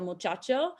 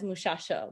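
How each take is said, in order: First: The middle consonant is a ch sound. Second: The middle consonant is a sh sound. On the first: "words containing a ch" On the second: "with the um, sh sound"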